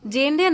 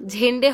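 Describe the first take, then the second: First: The name begins with a plain 'j' sound. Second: The name begins with a breathy 'jh' sound. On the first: The speaker calls it wrong. "জেন্ডে না" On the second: The speaker calls it right. "জেডের উচ্চারণটা ঝড়ের ঝেন্ডে হবে"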